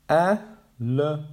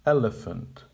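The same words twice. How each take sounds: First: "e-le-phant" broken into slow separate syllables. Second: "elephant" as one smooth word, both later vowels reduced to schwa, ELL-uh-funt; natural schwa form. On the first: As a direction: spell out "e-le-phant" slowly, one syllable at a time. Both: Shown as a demonstration. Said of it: "is pronounced".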